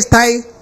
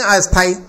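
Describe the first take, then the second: First: The word starts directly with the st cluster. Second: An extra a vowel comes before st. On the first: Permanent. The speaker calls it right. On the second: Temporary, not permanent. The speaker calls it wrong.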